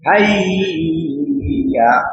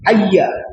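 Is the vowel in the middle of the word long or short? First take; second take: long; short. First: A vowel in the middle is drawn out long. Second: The middle of the word is kept short. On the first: The speaker calls it wrong. "এটা ভুল" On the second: The speaker calls it right. "এটা হলো শুদ্ধ"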